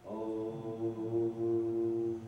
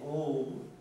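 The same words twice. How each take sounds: First: It is said deeply with breath from inside. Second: It is said plainly, without much breath.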